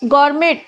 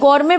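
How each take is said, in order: First: The word ends with an audible t sound. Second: The word ends without any t sound. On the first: The speaker calls it wrong. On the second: The speaker calls it right.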